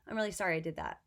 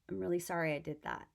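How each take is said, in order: First: It sounds hollow and without real remorse. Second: It sounds genuinely remorseful and caring. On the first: The speaker does not truly regret it. The speaker calls it wrong. "Same words, but totally different communication" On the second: The speaker truly regrets what they did. The speaker calls it right. "if I'm genuinely remorseful"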